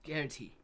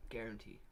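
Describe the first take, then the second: First: Said in the usual way. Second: Softer echo. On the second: Shown as a demonstration. Streamer muttering "Guarantee." to himself, softer and lower. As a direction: repeat "Guarantee." quieter and lower, falling. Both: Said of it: "I can guarantee you".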